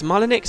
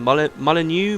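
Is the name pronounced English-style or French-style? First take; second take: English-style; French-style. First: The name is pronounced in a plain English way. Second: The name is pronounced in a French-sounding way.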